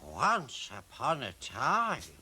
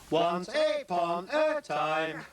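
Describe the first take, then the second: First: It is said in a smooth, natural voice. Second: It is said in a jerky, mechanical voice. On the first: The speaker calls it right. "He says" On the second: The speaker calls it wrong. "in that funny, jerky voice"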